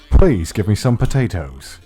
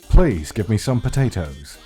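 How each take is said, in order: No difference in how they are said.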